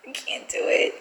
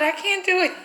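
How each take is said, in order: First: Anxious whisper. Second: Said in the usual way. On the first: Real, not acted. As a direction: drop to a scared whisper. Panicking over the prank.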